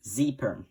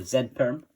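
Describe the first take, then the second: First: Z said as "zee" in "Z perm"; American Z. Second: Z said as "zed" in "Z perm"; British Z. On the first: Tutor names the next algorithm, Z said "zee". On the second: Tutor offers the other name, Z said "zed". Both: Shown as a demonstration. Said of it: "however you wanna say it".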